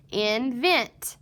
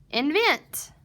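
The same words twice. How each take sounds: First: "invent" said in two separate parts, in, then vent; split syllables. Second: Said in the usual way. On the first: Shown as a demonstration. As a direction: break "invent" after in, both parts evenly weighted. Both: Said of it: "So the word is".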